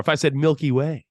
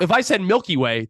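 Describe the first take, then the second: First: "Milky Way" lifting on "Way"; galaxy emphasis. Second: "Milky Way" falling away at the end; candy-bar emphasis. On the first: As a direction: say "Milky Way" with a rise on the last word. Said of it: "that's where you put the emphasis". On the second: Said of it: "the emphasis is what you're". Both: Shown as a demonstration.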